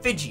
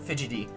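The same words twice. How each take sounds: First: It is pronounced to sound like Pidgey. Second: It is pronounced like the ordinary word fidgety. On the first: The speaker calls it right. "like Pidgey, like the Pokemon" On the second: The speaker calls it wrong. "not Fidgety"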